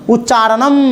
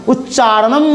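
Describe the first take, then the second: No difference in how they are said.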